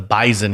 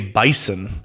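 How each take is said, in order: First: The middle consonant is a Z sound. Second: The middle consonant is an S sound. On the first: This is the local pronunciation used in this town. "we're going to pronounce this with a Z instead of an S" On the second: This is the standard pronunciation used elsewhere. "They pronounce it the correct way"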